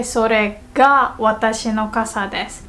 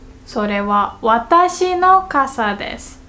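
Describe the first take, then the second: First: それが marked, the rest falling away; stress on それが. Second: 私の lifted above the rest; stress on 私の. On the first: Teacher explaining ga particle, stress on それが. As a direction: lean on それが, then ease off. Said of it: "what we put emphasis on is the word". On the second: Teacher explaining wa particle, stress on 私の. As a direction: lean on 私の after それは. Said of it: "what comes after the wa particle is". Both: Shown as a demonstration.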